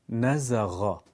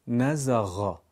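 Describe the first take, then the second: The two takes are said the same way.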